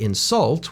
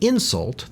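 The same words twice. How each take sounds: First: The stress is on the second syllable. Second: The stress is on the first syllable. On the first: It names an action. "We put the stress on the second syllable" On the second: It names a thing. "the first syllable is stressed"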